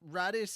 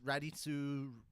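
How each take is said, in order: First: The name is said without Japanese-style pronunciation. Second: The name is said with Japanese-style pronunciation. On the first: "it's Radis and Radder" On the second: "It's just how the Japanese pronounce it"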